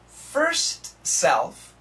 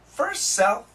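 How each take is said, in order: First: The t at the end of first is pronounced. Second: The t is dropped, linking the two s sounds. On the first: "Perfect pronunciation" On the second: "when we say it relaxed"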